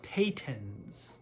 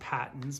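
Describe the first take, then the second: First: The first syllable sounds like 'pay'. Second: The first syllable sounds like 'pat'. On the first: The speaker calls it right. "a viewer did correct me, that it's pronounced Peytons" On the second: The speaker calls it wrong. "I pronounce it Patton's because that's what everyone and their mom calls it"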